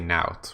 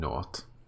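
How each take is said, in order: First: The vowel sounds like the one in 'out'. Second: The vowel sounds like the one in 'ought'.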